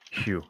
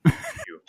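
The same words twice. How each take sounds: First: Said in the usual way. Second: High squeaky phew. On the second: Shown as a demonstration. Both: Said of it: "Zane, it's your line".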